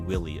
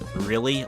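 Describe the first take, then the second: First: The word begins with a W sound. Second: The word begins with a clear R sound. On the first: "I'll say willy occasionally" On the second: "Or like really"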